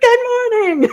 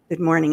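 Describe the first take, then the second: First: It is said loudly and with energy. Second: It is said weakly and without energy.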